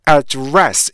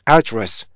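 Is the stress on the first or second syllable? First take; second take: second; first. First: The stress is on the second syllable. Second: The stress is on the first syllable. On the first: It is used as a verb. "두 번째 모음에 강세가 있기 때문에요" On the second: It is used as a noun. "맨 첫 음절에 강세가 있을 때 이런 거고요"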